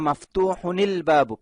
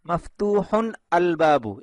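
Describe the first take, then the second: First: The final n links into the next word. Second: The words are said separately, with no linking. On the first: The speaker calls it right. "এভাবে মিলিয়ে পড়ে" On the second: The speaker calls it wrong. "এভাবে বলে না আরবরা"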